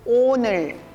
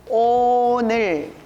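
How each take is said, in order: First: It is said fast. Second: It is said slowly.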